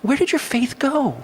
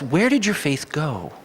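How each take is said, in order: First: Much higher, slowed voice for Jesus; Jesus questioning disciples. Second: Slow gentle question. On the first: Jesus asks frightened disciples in the storm, high and pleading. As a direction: lift it up high and ask it slowly, almost pleading. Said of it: "He looks at them and says". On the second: Preacher explaining Jesus' meaning to the congregation, slow and gentle. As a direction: ease it out slowly like a patient explanation. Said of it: "And what he means by that is". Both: Retold or imitated.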